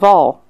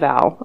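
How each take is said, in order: First: The vowel is an 'o' sound. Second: The vowel is an 'a' sound. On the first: The speaker calls it right. "I'm saying Vol" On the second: The speaker calls it wrong. "I'm not saying Val"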